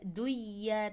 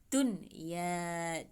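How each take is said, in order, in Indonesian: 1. Bunyi n melebur ke dalam y. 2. Bunyi n diucapkan dengan jelas sebelum y. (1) "tidak duya" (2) "nunnya jelas"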